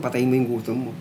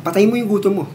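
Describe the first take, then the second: First: Said in the usual way. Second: Emphatic. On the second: Shown as a demonstration.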